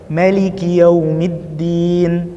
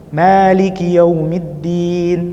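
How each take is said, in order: First: The first vowel of Maliki is short. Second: The first vowel of Maliki is held long. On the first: "hadzful alif" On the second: "itsbatul alif"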